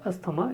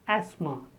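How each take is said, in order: First: The first vowel is not the apple vowel. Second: The first vowel is the apple vowel. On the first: The speaker calls it wrong. "It is not asthma" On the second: The speaker calls it right. "The first is a as in apple"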